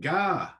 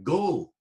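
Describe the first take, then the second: First: It is said with a northern 'ah' vowel. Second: It is said with a southern 'oh' vowel. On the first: "presumably something like ga, which of course you still get these days up north" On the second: "presumably something like go"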